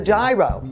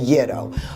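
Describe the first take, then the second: First: The word is said in the speaker's former pronunciation. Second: The word is said in its actual pronunciation. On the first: The speaker calls it wrong. "for years I mispronounced it" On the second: The speaker calls it right. "It is actually the gyro"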